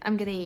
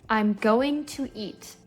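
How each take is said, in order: First: Going to is reduced to gonna. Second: Each word is said in full. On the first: "when you hear a native say it, it sounds like" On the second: "That's how you would learn it on a language learning app"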